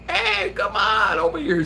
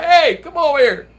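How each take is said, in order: First: New York holler. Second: Loud, high call across the street; loud retold holler; retold yell. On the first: Retold or imitated. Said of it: "You know, New York". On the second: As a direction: yell to get the guy over. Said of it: "I yelled at the guy".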